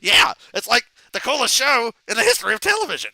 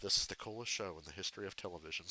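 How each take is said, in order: First: Loud, higher-pitched excited Beavis; Beavis impression. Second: Low, quick, softer Butthead drone; a hint of Butthead mumbling it fast; Butthead impression. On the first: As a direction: yell it like hyped-up Beavis. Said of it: "And then Beavis goes". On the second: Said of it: "Butthead goes".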